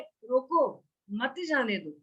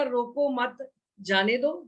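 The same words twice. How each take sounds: First: ਰੋਕੋ cut off on its own, then ਮਤ ਜਾਣੇ ਦਿਓ slow and a little softer, stress on ਜਾਣੇ; a pause after ਰੋਕੋ, then ਮਤ ਜਾਣੇ ਦਿਓ falling; phrasing: stop, don't let go. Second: ਰੋਕੋ ਮਤ run together, then ਜਾਣੇ ਦਿਓ, slow and rising at the end; phrasing: don't stop, let go. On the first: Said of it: "ਇਸ ਭਾਵਨਾ ਨਾਲ ਕਿਹਾ ਹੈ". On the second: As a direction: say ਰੋਕੋ ਮਤ as one unit, a pause, then ਜਾਣੇ ਦਿਓ with a slight rise. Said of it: "ਕੋਈ ਕਹਿ ਦੇਗਾ". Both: Shown as a demonstration.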